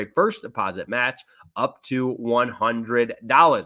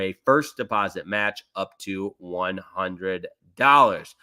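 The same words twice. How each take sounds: First: The phrase is said at a faster pace. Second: The phrase is said at a slower pace.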